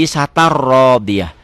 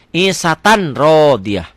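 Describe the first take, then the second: First: Slow ISATAR RODIYAH with rolled double R; N merged into R. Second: Slow ISATAN RODIYAH with a clear N; beginner's unmerged reading. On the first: Teacher showing the rule applied, ISATAR with rolled R. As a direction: drop the N, roll ISATAR into RODIYAH. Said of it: "patah tainnya baca satu". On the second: Teacher showing how beginners read, ISATAN with clear N. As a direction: sound the N of ISATAN before RODIYAH. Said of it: "Pemula akan baca begitu". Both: Shown as a demonstration.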